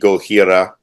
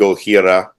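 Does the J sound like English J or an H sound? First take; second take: H sound; H sound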